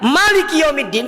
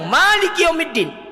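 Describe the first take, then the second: First: The vowel after the m is kept short. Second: The vowel after the m is held long. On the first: God is the king on the Day of Judgment. "kalau ma-nya pendek" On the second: God is the owner of the Day of Judgment. "ma-nya panjang"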